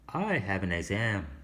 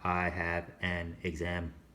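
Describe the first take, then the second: First: The words run together like one word. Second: Each word is said separately, not linked. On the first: The speaker calls it right. "notice how these words kind of sound like they're linked together" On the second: The speaker calls it wrong.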